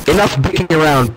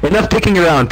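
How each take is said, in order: First: Said in the usual way. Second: A bolder retake, a touch higher; declaring. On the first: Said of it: "enough dicking around," Pinky declared". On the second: A narrator's reading. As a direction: declare it like Pinky means business. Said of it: "Pinky declared".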